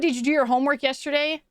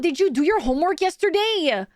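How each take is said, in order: First: It is said in a plain, normal voice. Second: It is said in an imitated, put-on accent. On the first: "completely normal sentence" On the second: "the tone and the intonation and how they would talk would be"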